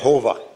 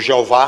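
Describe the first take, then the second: First: The name is pronounced in a non-Portuguese way. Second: The name is pronounced in a Portuguese way.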